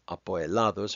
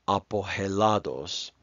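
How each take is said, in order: First: The word has no h sound in it. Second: The word has an h sound before the vowel.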